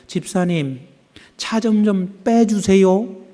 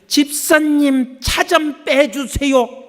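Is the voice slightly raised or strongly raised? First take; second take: slightly raised; strongly raised. First: The voice is slightly raised and still polite. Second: The voice is strongly raised and sounds irritated.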